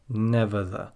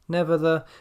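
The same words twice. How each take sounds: First: The pitch on these syllables is low. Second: The pitch on these syllables is high. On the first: The speaker calls it right. "we've got quite a low tone on the never the" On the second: The speaker calls it wrong. "We're not saying never the"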